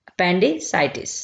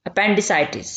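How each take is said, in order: First: Appendicitis said very slowly, syllable by syllable; teacher drawing out appendicitis slowly; slow clear repeat. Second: Said in the usual way. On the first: Shown as a demonstration. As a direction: spell it out slowly for the class. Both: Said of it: "इसे English में कहा जाता है appendicitis".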